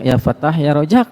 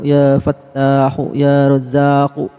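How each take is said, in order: First: Each name ends abruptly on its final consonant. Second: Each name ends with a linking 'u' vowel. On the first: It feels heavy and stuffy in the chest. The speaker calls it wrong. "berat saudara, ke dada, pengap" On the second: It feels light to breathe. The speaker calls it right. "Kalau dibaca wasol"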